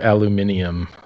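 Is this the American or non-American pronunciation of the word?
non-American. It is said the non-American way, aluminium. The speaker calls it right. "It's actually aluminium"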